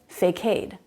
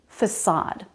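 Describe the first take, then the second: First: The C is a K sound, rhyming with cascade. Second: The C is an S sound, like in city. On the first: The speaker calls it wrong. "I said facade, barricade, cascade, decade" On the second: The speaker calls it right. "The C is the S sound"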